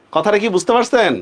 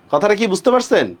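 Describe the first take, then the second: No difference in how they are said.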